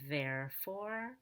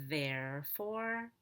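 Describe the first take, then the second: Both takes have the same delivery.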